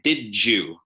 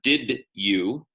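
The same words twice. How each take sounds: First: The d and y merge into a j. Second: The d and y sounds stay separate. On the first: The speaker calls it right. "we say did you" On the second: The speaker calls it wrong. "instead of did you"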